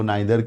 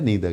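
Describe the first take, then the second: First: The first vowel sounds like 'eye'. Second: The first vowel sounds like 'ee'. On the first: "आपको नाइदर कहना है" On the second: "या नीदर कहना है"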